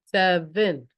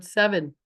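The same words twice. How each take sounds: First: "Seven" split into two beats, sev-en; syllable by syllable. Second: Said in the usual way. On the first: Shown as a demonstration. Teacher shows class two syllables, "Seven" broken into sev-en. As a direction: sound out "Seven" with a break between syllables. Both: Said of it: "Two syllables".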